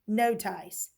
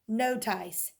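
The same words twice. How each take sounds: Both takes have the same delivery.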